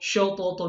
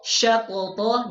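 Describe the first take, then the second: First: The sh sound is heavy and thick. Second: The sh sound is light and thin. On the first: The speaker calls it wrong. "dia tebal bacanya. Ini keliru juga" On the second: The speaker calls it right. "seharusnya dibaca"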